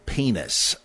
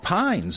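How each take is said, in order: First: The surname is pronounced with its Hebrew sounds. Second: The surname is pronounced as an English word. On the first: The speaker calls it right. "I'm afraid the Hebrew is" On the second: The speaker calls it wrong. "you might want to mispronounce it that way in public"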